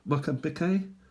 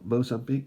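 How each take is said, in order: First: The name is said with its local pronunciation. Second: The name is said with the usual English pronunciation. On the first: This is the country's own name for itself. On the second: This is what English speakers call it.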